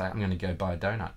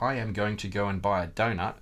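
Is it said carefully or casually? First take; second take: casually; carefully. First: Words run together in a relaxed rhythm. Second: Every word is said carefully and evenly.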